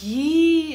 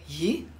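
First: High drawn-out yi; long surprised yi. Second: Short low clipped yi. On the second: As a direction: snap out a short yi. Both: Shown as a demonstration. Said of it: "if you say it short".

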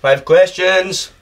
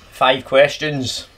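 First: Slow, drawn-out echo; echoing announcer. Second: Slow, drawn-out announcement; mock announcer. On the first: Acted. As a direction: repeat it like a quiz host. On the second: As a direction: spell it out like a quiz host. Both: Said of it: "Quick fire round".

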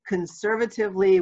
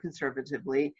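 First: "Conservatively" set apart, pitched higher; stressed, higher "Conservatively"; emphasis on "Conservatively". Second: Said in the usual way. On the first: Shown as a demonstration. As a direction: lean on the word "Conservatively" as a caveat. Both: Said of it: "with the emphasis on the word conservatively".

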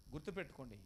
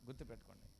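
First: Said in the usual way. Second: గుర్తుపెట్టుకోండి dropped much lower and softer; hushed reminder. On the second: Shown as a demonstration. Pastor repeats గుర్తుపెట్టుకోండి to the congregation, hushed and low. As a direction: murmur గుర్తుపెట్టుకోండి low and soft, like a private warning.

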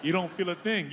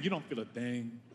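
First: Said in the usual way. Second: Lower, softer, deadpan You don't feel a thing; cold and quiet. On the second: Shown as a demonstration. Office worker tossing paper, repeating it softer. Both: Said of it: "repeated, second dropped".

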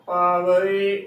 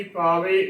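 First: ਪਾਵੇ slowly as "paa-va-e"; correct three-syllable reading. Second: ਪਾਵੇ as "paa-ve"; wrong two-syllable reading. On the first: Teacher giving the correct reading, ਪਾਵੇ as slow "paa-va-e". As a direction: keep a short "va" before the separate e in ਪਾਵੇ. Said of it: "ਉਚਾਰਨ ਕਰਨਾ ਹੈ". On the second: Teacher contrasting the wrong reading, ਪਾਵੇ as two-syllable "paa-ve". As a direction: fold the e straight into the v of ਪਾਵੇ. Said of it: "ਨਾ ਕਿ". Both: Shown as a demonstration.

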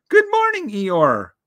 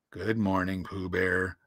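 First: Very high, louder bear voice; Pooh's cheery greeting. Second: Low, soft downcast donkey; gloomy Eeyore. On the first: Pooh Bear greeting gloomy Eeyore, high and cheery. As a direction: pipe up as a friendly little bear. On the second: Donkey answering Pooh Bear's greeting, gloomy. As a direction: return the greeting in a glum, low voice. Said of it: "said Eeyore gloomily". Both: A narrator's reading.

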